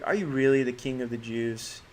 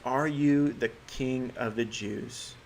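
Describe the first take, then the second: First: It is asked in an incredulous, sarcastic tone. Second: It is asked in a plain, neutral tone.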